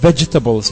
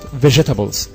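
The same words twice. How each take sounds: First: The g sound starts with a short d. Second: The g sound has no short d before it. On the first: The speaker calls it right. "So I have to say it like vegetables" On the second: The speaker calls it wrong. "not vegetables"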